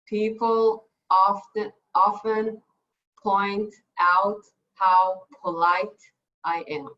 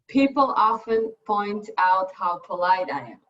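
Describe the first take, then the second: First: The sentence is said very slowly. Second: The sentence is said very fast.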